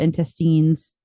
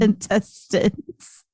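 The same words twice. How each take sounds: First: The last syllable sounds like 'teens', as in Christine. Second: The last syllable sounds like 'tins', not 'teens'. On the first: The speaker calls it wrong. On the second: The speaker calls it right.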